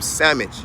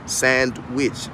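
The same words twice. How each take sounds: First: Sandwich said as sammich, no d or w; Southern country sandwich, sammich; country pronunciation. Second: Said in the usual way. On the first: Shown as a demonstration. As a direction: sandwich squeezed to two quick syllables, sam-mich. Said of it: "If you from the country like I am". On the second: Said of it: "I can say sandwich".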